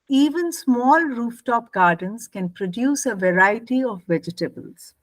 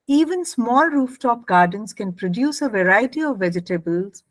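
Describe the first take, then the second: First: The phrase ends finally, with a full break. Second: The phrase carries straight on into the list. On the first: The list starts a new sentence. "So this was with a full stop" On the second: The list continues the same sentence. "Now I'll read it without the full stop"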